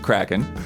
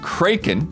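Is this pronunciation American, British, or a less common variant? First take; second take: American; less common. First: It is the common American pronunciation. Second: It is a rarer, less common pronunciation. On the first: "the common American pron- pronunciation is Kraken" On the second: "the pronunciation that Don brought forth that we had never heard of"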